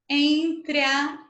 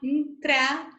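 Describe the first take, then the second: First: The two words are said as separate syllables. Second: The two words merge into almost one syllable.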